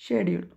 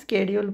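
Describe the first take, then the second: First: The word begins with an 'sh' sound. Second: The word begins with an 'sk' sound. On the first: "शेड्यूल किंवा स्केड्यूल पण म्हटलं जातं" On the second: "थोडेजण स्केड्यूल म्हणतात"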